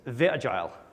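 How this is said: It is said in a put-on German accent.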